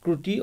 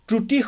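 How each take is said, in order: First: The word begins with a 'kr' sound. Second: The word begins with a 'tr' sound. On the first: The speaker calls it wrong. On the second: The speaker calls it right.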